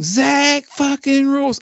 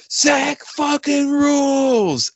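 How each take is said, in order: First: Slow, high Southern country drawl on each word; high drawn-out country twang. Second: High, slow mock shout across a studio; stretched-out mock yell; imitated yell from the booth. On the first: Shown as a demonstration. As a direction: stretch it out like a Kentucky good ol' boy. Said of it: "if you say it in a country twang". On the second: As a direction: call it out like a producer cheering through the glass. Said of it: "Andrew yelled from the fucking control room".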